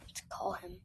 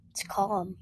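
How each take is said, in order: First: Whispered, rising on him. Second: Said in the usual way. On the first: Shown as a demonstration. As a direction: breathe it out in a whisper.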